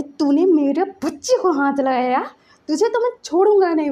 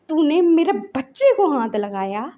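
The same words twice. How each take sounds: First: Retold threat rising higher and louder, faster at the end; building to a mock furious yell; angry threat. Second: Retold angry challenge, slow and pressing; mild mock anger, dragging the words out. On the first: Father threatening the woman who hurt his child, rising fury. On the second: Father confronting the woman who hurt his child, mildly angry. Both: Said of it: "उसको जो गुस्सा चढ़ा ना".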